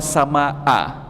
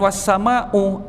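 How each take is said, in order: First: The word ends with an a vowel. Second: The word ends with a u vowel. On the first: "Kalau dibaca was-samaa malah bukan demi" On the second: "bukan was-samau"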